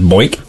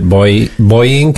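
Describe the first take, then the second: First: The name is said with one syllable. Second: The name is said with two syllables. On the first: "shove it into one syllable" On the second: "like it's two syllables"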